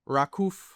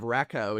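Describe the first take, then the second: First: The name ends in an f-like sound. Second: The name ends in a w-like glide. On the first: The speaker calls it right. "it's Rakuf" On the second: The speaker calls it wrong. "instead of Rakow"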